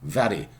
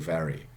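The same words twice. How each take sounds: First: The r is a quick tongue tap. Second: The r is a plain untapped r. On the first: "have a short tap. ... I do it, very upper class" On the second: "You don't have to do it. You can say"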